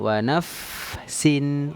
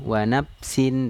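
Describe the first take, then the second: First: The consonant is an f with teeth on lip. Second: The consonant is a p made with both lips. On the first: The speaker calls it right. "tapi harusnya wa nafsin" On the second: The speaker calls it wrong. "kalau berbicara menggunakan P ya"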